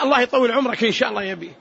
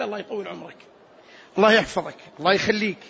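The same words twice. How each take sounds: First: Quick, casual blessing for a father; noncommittal prayer. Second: Low, definite, separate blessings; unconditional prayer. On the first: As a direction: rattle off the wish in passing. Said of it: "الولد لوالده". (دعاء عابر من ولد لأبيه) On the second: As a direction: give each blessing without hedging. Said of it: "بلا استثناء". (دعاء جازم بلا استثناء) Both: Shown as a demonstration.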